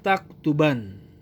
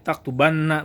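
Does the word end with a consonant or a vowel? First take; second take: consonant; vowel. First: The word ends on a bare n sound. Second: The word ends on a doubled n plus vowel. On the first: "nun taukidnya yang disukun" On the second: "Boleh juga dibacanya taktubanna"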